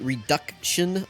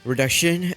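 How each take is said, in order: First: The middle 'duct' sound is said clearly. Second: The middle 'duct' sound is slurred and dropped.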